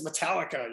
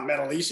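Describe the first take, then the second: First: The name ends with a 'lika' sound. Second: The name ends with a 'leesha' sound. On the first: The speaker calls it right, giving the band's correct name. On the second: The speaker calls it wrong. "they were mispronouncing the band's name"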